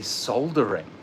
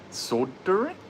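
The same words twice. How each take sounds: First: It is said in a non-American pronunciation. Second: It is said in the American pronunciation. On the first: "I say soldering" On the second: "How do people say it here?"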